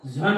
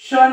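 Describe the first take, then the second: First: The ending sounds like 'zhun' in one syllable. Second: The ending sounds like 'shun' in one syllable. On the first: "याचा दुसरा उच्चार झन होतो" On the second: "हा देखील शन आहे"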